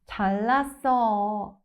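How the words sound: It sounds mocking and sarcastic, eyes rolling. The other person is showing off. "it's pure sarcasm, like when someone is showing off"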